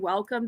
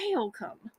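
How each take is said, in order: First: It is said in a plain standard accent. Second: It is drawled like "whale come", Southern style. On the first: "that doesn't say welcome" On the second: "they say welcome"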